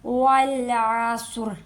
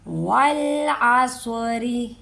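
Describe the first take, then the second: First: The word ends abruptly on the r consonant. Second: The word ends with a light r and short i. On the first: The reciter stops at the end of the verse. "जब हम वक्फ करेंगे" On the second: The reciter continues into the next words. "अगर तो आसरी पढ़ना है हमने तो रा को बारीक पढ़ेंगे"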